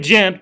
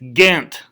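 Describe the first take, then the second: First: The name is said in local Southern fashion. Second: The name is said in the Belgian fashion. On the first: This is how people from the home region say it. The speaker calls it wrong. "We say Gent because we're hillbilly Southern West Virginians" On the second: This is how the place itself is named. The speaker calls it right. "this place is actually in Belgium, and it's Ghent"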